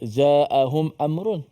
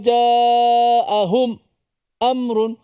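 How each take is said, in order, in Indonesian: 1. Kedua kata itu menyambung tanpa jeda. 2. Ada jeda singkat yang senyap memisahkan kedua kata itu. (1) "Kita baca uh" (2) "dia sakatah lagi"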